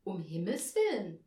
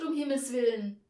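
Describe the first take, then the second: First: Measured echo at everyday pitch; confirming. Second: Loud, higher cry of dismay; appalled exclamation. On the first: Angel echoing the hostess's words, composed confirmation. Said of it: "bestätigte Aurelius". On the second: Hostess aghast at the visitor's costume, loud dismay. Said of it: "sagte sie entsetzt". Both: A narrator's reading.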